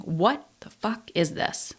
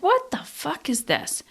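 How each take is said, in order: First: Quiet, slow, dogged "what the fuck is this"; softer, slower, steely resolve; determined. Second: Higher, exasperated "what the fuck is this"; fed up with herself, pitched high; irritated self-directed outburst; annoyed. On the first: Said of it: "now I'm determined". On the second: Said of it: "now I'm just annoyed with myself". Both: Retold or imitated.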